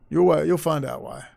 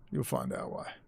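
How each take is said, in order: First: Said in the usual way. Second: Hushed ominous whisper. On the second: Real, not acted. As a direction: whisper it like a secret threat. Ominous teaser, then whispered.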